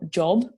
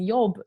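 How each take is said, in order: First: It begins with a 'j' sound, as in English. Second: It begins with a 'y' sound instead. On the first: The speaker calls it right. "you don't change the sound of the J" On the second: The speaker calls it wrong. "I was walking around saying yob"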